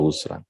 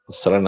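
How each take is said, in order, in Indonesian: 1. Vokal pertama adalah bunyi 'u' membulat. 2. Vokal pertama adalah bunyi 'a' terbuka. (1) "au dhammiyah" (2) "bi fathil ghini"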